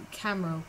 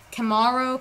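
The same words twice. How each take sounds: First: Camaro with CAM as in camera; tentative, quieter CAM-uh-ro for Camaro; unsure pronunciation. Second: Camaro as kuh-MAR-oh; second try at Camaro, kuh-MAR-oh; corrected pronunciation. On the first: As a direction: say Camaro as CAM-uh-ro, stress first, softly. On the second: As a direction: stress the second syllable of Camaro, open MAR. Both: Shown as a demonstration. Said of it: "I can't say it".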